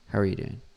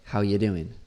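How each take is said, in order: First: Every word, including 'are', is pronounced. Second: The word 'are' is dropped from the phrase.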